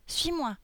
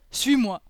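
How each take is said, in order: First: Put-on high, decisive little-girl voice; higher-pitched girl character, giving an order; little girl leading. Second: Loud, emphatic ogre order; booming ogre character voice; commanding ogre. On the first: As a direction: urge the ogre along as a small girl. Lolisa leads Boris. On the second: Acted. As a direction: order her along as the big ogre. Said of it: "répondit Boris".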